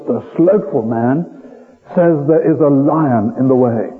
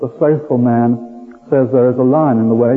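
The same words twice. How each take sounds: First: It is said imitating a German accent. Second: It is said in a plain, unaccented voice.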